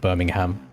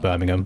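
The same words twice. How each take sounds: First: The name is said the fuller American way. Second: The name is said the British way. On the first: "for the American version, they'll call it Birmingham, like a bit more pronunciation" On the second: "at least from where I'm from in the U K, we call it Birmingham"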